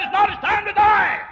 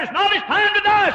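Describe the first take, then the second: First: Loud, high proclaiming shout; shouted divine verdict. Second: Ringing, high proclaiming; voice of God. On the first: Preacher voicing God again, even louder. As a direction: hammer the verdict home. God's word repeated, shouted. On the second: Preacher voicing God's answer, loud and high. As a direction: declare it like a divine verdict. God's word retold at full force. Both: Retold or imitated.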